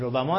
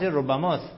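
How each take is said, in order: First: ربما with a light, undoubled b; no gemination on the b of ربما; without doubled b. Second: ربماست with the b held double; doubled b. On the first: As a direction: say ربما as ro-ba-ma with a single b. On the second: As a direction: say ربماست as rob-ba-mast. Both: Shown as a demonstration. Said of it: "ربما تشدید نداره".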